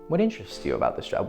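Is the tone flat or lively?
lively. The question is asked in a lively tone. It feels like a playful, interested conversation. The speaker calls it right. "totally different"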